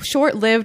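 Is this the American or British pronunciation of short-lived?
British. It is said with a British pronunciation. "is the British pronunciation of that phrase"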